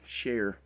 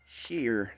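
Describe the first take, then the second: First: "share." said with a clear open air vowel, shair; the fixed "share." rhymes with "air"; corrected share. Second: "Share" said with a tight ee-like vowel, like "shear"; drawled "Share" with the vowel drifting toward "shear"; sounds like shear. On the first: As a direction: say "share." carefully, like "chair" with sh. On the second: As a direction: say "Share" so it comes out close to "shear". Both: Shown as a demonstration. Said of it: "Sound like I'm saying shear".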